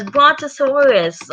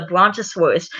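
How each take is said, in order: First: Put-on high-pitched toddler repeating a big word; two-year-old's echo. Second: Said in the usual way. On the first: George repeats Daddy Pig's brontosaurus, high toddler voice. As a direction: parrot BRONTOSAURUS in a high little-kid pitch. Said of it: "George says". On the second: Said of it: "Daddy Pig says".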